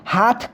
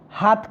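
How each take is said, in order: First: The final consonant is aspirated. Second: The final consonant is unaspirated. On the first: This is the standard form. "हाथ को" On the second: This is the Bundeli dialect form. "हाथ कर दिया"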